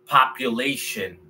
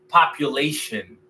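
Both takes have the same delivery.

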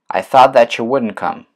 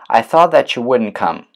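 The two takes are said the same way.

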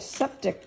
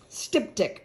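First: The word begins with a 'sep' sound. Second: The word begins with a 'stip' sound. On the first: The speaker calls it wrong. "I said it wrong again" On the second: The speaker calls it right. "I think is the way you say it"

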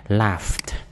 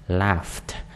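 No difference in how they are said.

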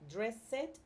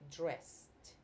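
First: The word ends in an extra 'ed' syllable. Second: The word ends in a plain t sound. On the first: The speaker calls it wrong. "Not dressed. ... it's not pronounced ed" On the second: The speaker calls it right. "It's pronounced t"

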